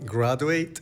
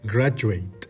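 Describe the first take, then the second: First: The 'du' is said as a plain 'doo'. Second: The 'du' is said as a 'joo' sound. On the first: The speaker calls it wrong. "Dijiste education y graduate. No está mal" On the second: The speaker calls it right. "cómo suena más natural ... vas a decir Y"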